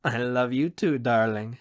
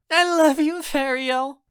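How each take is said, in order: First: Warm answer in an easy, natural pitch; affectionate and settled, with light amusement; fond, amused reply. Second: Put-on high, loud girlish gush; overjoyed, very high-pitched declaration. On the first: Acted. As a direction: answer her fondly, unhurried. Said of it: "he says with a chuckle". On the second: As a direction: squeal your affection. Cheering Myra declares love loudly.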